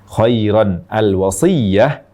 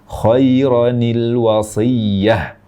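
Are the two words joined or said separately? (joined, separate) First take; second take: separate; joined. First: The two words are said separately, unlinked. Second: The words are joined with an added -i- sound.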